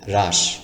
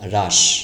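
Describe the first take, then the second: The two takes are said the same way.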